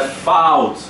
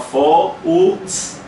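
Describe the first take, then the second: First: The o and u blend into one gliding sound. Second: The o and u are said as separate sounds. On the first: The speaker calls it right. "o junto é ao" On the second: The speaker calls it wrong. "como se fosse distinto"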